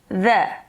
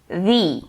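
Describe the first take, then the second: First: It uses the form said before consonant sounds. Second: It uses the form said before vowel sounds. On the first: The next word starts with a consonant sound. "se a palavra que vem em seguida começar com consoante" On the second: The next word starts with a vowel sound. "Se a palavra em seguida vier com vogal"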